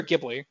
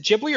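First: Ghibli said with a hard g, "GIB-lee"; hard-g pronunciation. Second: Ghibli said with a soft g, "JIB-lee"; soft-g pronunciation. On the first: Host offering co-host the alternative, hard-g Ghibli. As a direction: start Ghibli with the g of "give". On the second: Host asking co-host which pronunciation is right, soft-g Ghibli. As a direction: start Ghibli with a j sound. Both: Shown as a demonstration. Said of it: "is it Ghibli or Ghibli".

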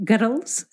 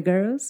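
First: Put-on Scottish girls with rolled r; Scottish accent. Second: Said in the usual way. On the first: Shown as a demonstration. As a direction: say "girls" as "gerols", Scottish style. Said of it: "yo siempre digo en plan". (acento escocés en "girls") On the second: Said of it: "en vez de".

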